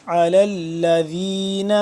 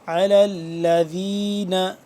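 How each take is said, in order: No difference in how they are said.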